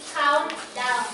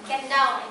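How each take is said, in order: First: The first syllable sounds like 'count'. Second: The first syllable sounds like 'can'. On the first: The speaker calls it right. "It should be count down" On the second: The speaker calls it wrong. "some of us has pronounced it uh, con can down"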